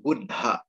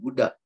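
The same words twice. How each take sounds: First: The middle consonant is held long and doubled. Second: The middle consonant is short and single. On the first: The speaker calls it right. "tapi Buddha" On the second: The speaker calls it wrong. "Jadi bukan Buddha"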